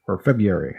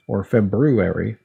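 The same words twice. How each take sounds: First: February without its first R, as Feb-yoo-ary; dropped first R. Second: February with both Rs, as Feb-roo-ary; fully sounded R. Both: Shown as a demonstration. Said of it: "people say it different ways".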